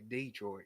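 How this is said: Detroit is said with Southern country-style emphasis. It names the town in Alabama. "in Alabama you say Detroit. You got to put the emphasis there"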